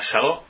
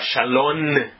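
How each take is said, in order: First: The word is cut off before its end. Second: The word ends with an n sound. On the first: "sem terminar a palavra" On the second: "e sim com N"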